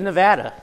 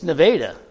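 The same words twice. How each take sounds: First: It is said the way the state's name is said. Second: It is said the way the local town is said. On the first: It names the US state. "The state of Nevada" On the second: It names the nearby town. "this town down the road. This Nevada"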